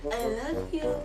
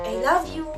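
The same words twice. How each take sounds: First: It is said in a flirty tone. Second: It is said in a sarcastic tone. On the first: "next is flirty" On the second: "Next is sarcastic"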